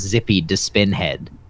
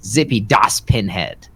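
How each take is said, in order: First: The s sound starts the last word. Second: The s sound ends the middle word. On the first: The speaker calls it wrong. "did you let us go believing it was" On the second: The speaker calls it right. "that is indeed how you say it"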